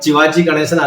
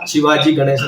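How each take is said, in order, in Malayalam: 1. ഈ പേര് ch ശബ്ദത്തിലാണ് തുടങ്ങുന്നത്. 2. ഈ പേര് s ശബ്ദത്തിലാണ് തുടങ്ങുന്നത്. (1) "അയ്യോ ഇത് ശിവാ ശിവാജി ഗണേശൻ അല്ല" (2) "ആണെന്ന് മാറ്റി പറയും"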